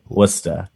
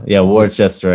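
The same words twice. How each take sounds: First: Worcester said as wiss-ter, two short syllables; local Worcester. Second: Worcester said as written, wor-ches-ter; spelled-out Worcester. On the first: Host gives the locals' way to say Worcester, wiss-ter. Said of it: "It's what people say". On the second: Cohost tries the outsider's Worcester, wor-ches-ter. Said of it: "That's not how you say it". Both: Shown as a demonstration.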